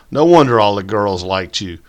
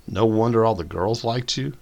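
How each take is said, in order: First: Said in the usual way. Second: Puzzled. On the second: A narrator's reading. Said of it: "J B puzzled".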